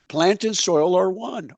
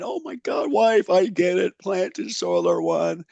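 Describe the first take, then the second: First: Said in the usual way. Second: A high burst of discovery, then slows on the last words; excited shout. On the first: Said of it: "That's the number one thing I gotta get across". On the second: Retold or imitated. Shouting to his wife from the bedroom, thrilled. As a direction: retell a thrilled eureka yell to the wife. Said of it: "I came screaming out of my bedroom going".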